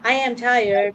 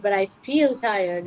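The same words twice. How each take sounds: First: Said in the usual way. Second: "but I feel tired" with feel held; stress on feel. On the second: Shown as a demonstration. Contrasting the two sentences for a friend, stress on feel. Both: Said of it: "It's a huge difference".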